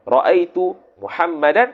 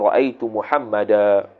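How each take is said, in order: First: The last word ends with an n sound. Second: The last word ends on a long a vowel. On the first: The word is read with its tanwin. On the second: The reader stops on the word.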